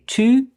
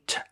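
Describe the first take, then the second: First: The word is said with a full vowel. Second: The word is said with a reduced vowel. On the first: The speaker calls it wrong. "they don't say to" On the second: The speaker calls it right. "they say t"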